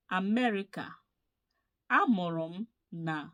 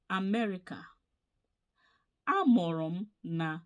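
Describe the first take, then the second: No difference in how they are said.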